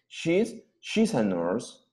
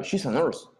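First: "she's a nurse" said slowly, each word laid out; slow careful demo. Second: "she's a nurse" run together quickly; faster. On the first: Teacher modelling "she's a nurse" slowly for students. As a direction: spell it out slowly for the class. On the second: Teacher repeating "she's a nurse" for students at natural speed. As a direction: say it faster, like natives do. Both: Shown as a demonstration. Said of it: "Más rápido".

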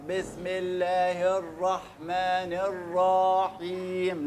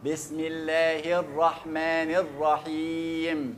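First: الرحيم with the raa held too long; wrong long raa. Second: الرحيم with a short, snatched raa; clipped raa. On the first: Teacher showing students the common mistake, raa held too long. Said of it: "خطأ في الرحيم إن أنا بطول الراء". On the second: Teacher giving students the correct version, raa snatched short. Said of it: "قطع أو نتش أو خطف". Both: Shown as a demonstration.

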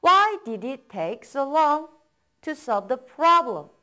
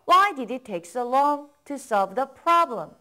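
First: Slow, split into two phrases; slow chunked reading. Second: Slow, one smooth phrase; slow model reading, in one go. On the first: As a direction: break it in two, slowly. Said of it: "그 이유를 물어보는 거예요". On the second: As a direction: read it whole, slowly, for copying. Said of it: "따라 읽어보세요". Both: Shown as a demonstration.

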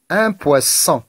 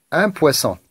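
First: "poisson" with the middle s held; stressed S sound. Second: Said in the usual way. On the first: Shown as a demonstration. Teacher helping pupils find the repeated sound, "poisson" with s held. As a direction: draw out the s inside "poisson". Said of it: "chercher le son qui se répète". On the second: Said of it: "Je reprends la lecture".

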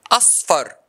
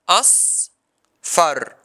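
First: Said in the usual way. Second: "Asfar" split into as and far, long pause between; syllable by syllable. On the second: Shown as a demonstration. Teacher showing the two syllables, syllable by syllable. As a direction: break "Asfar" into two drawn-out beats. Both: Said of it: "This word has two syllables".

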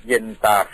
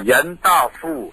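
First: เย็นตาโฟ with level tones, ending in a long fo; Thai pronunciation. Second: เย็นต้าฟู่ with a falling tone on ต้า and a long ฟู่; Hokkien pronunciation. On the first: Explaining how Thais came to say the name, plain careful pronunciation. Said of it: "เราก็มาออกเสียงว่า". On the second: Explaining how Hokkien speakers name the noodles, careful pronunciation. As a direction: say เย็นต้าฟู่ ending in foo rather than fo. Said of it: "เขาออกเสียงว่า". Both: Shown as a demonstration.

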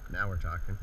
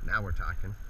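The two takes are said the same way.

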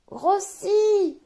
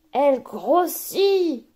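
First: Grossit said much higher; rising growth. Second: Slow, stretched grossit; drawn-out growing. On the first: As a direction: lift grossit way up, bigger still. Bubble swelling further. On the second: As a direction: draw out grossit as the bubble swells. Bubble swelling, word drawn out. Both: Acted.

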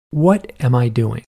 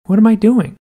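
First: Slow, deliberate "What am I doing", each word spaced out; slow self-questioning. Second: Higher "What am I doing", pitched up in mock disbelief; exasperated self-questioning. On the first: Retold or imitated. Woman questioning herself after hanging up, slow self-questioning. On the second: Woman questioning herself after hanging up, exasperated self-questioning. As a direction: repeat "What am I doing" with a high, emphatic lift.

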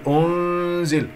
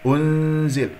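First: أنزل with the u dragged into the noon; faulty long oo-n in أنزل; wrong, dragged damma. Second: أنزل with short u, then nasal hum on the noon; correct ghunna. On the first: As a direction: smear the u through the nasal of أنزل. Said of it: "تسحب ضمة الهمزة إلى النون". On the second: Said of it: "لا تقل أنزل". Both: Shown as a demonstration.

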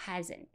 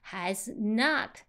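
First: "hasn't" in two syllables, the o of not dropped; soft, contracted "hasn't"; contracted form. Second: Said in the usual way. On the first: Shown as a demonstration. Teacher reducing has not, contracted "hasn't". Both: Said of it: "就是hasn't".

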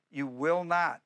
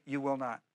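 First: "not" hit firmly, falling; stress on NOT. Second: "will" leaned on, said softer; stress on WILL. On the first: Preacher stating the promise to the congregation, stress on not. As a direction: land hard on "not". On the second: Preacher having the church repeat the promise, stress on will. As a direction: lean on "will" and drop the volume. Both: Shown as a demonstration.

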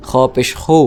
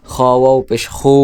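First: Said in the usual way. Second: Long, held final খু; elongated vowel. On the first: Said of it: "এটা স্বাভাবিক উচ্চারণ হরকতের". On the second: Shown as a demonstration. Teacher repeating kha for students, খু held long. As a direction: stretch the vowel in খু. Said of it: "মদের সাথে টেনে উচ্চারণ করেন".

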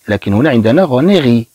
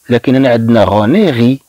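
The two takes are said the same way.

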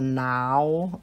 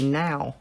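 First: Said in the usual way. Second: "now" with a southern twang. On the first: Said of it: "instead of now". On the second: Shown as a demonstration. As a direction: twang "now" toward "nee-ow". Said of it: "it's got a southern twang to it".

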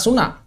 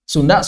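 First: "Suna" with only n in the middle; D dropped with nasal. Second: Said in the usual way. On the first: Shown as a demonstration. Teacher closing the Sundanese examples, "Suna" without d. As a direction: turn the nd to n, "Suna". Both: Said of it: "Menghilangkan dal dengan gunnah".

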